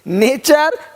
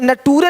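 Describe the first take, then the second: First: The middle consonant is a 'ch' sound. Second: The middle consonant is a 't' sound. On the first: The speaker calls it right. "नहीं, नेचर" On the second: The speaker calls it wrong. "यहाँ पे नटूरे नहीं बोलते"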